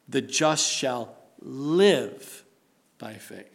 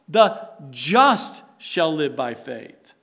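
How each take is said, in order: First: The stress is on the word live. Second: The stress is on the word just.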